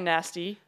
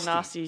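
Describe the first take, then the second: First: The word is said with an American pronunciation. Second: The word is said with a non-American pronunciation. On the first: "I don't say nasty" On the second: "I say nasty"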